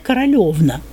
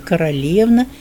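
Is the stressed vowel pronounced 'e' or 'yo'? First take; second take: yo; e. First: The stressed vowel is pronounced as 'yo'. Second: The stressed vowel is pronounced as 'e'. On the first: This is the native Russian dialect form. "в диалектах записано ... это по-русски" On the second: This is the Church Slavonic form used in the literary language. "в литературном языке ... по-церковнославянски"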